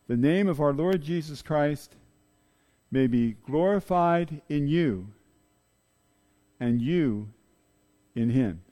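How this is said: The final 'you' is strongly stressed.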